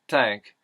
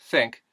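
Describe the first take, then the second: First: It starts with t and has an a vowel. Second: It starts with th and has an ih vowel.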